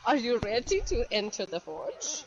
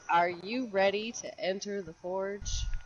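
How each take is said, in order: First: It is said imitating Pilatov's voice. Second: It is said in the speaker's normal voice.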